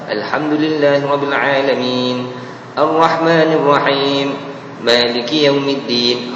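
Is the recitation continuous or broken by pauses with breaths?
pauses. It stops and takes a breath between phrases. "yang tu tak apa, sebab dia ada ambil nafas"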